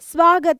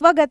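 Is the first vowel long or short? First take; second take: long; short. First: The first vowel is held long. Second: The first vowel is cut short. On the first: This is the form that should be written. The speaker calls it right. "ಸ್ವಾಗತ ಅಂತ ಬರಿಬೇಕಾಗಿರುತ್ತೆ" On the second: This is how people around these cities say it. The speaker calls it wrong. "ಸ್ವಗತ ಅಂತಾರೆ ಇಲ್ಲಿ. ಸಾನ ಇಳಿಸೋದೇ ಇಲ್ಲ"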